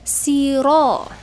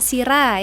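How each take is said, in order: First: The r is heavy, with a thick vowel. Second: The r is light, with a thin vowel. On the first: The speaker calls it right. "ro-nya itu harus tebal, disebut dengan tafkim" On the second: The speaker calls it wrong. "bukan sira ya"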